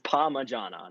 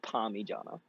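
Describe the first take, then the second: First: The word begins with the sound 'parma'. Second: The word begins with the sound 'parmi'. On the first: The speaker calls it right. "if you don't come from Melbourne and you don't say Palmer, you're wrong. So it's Palmer. It's Parmigiana" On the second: The speaker calls it wrong. "not Parmigiana"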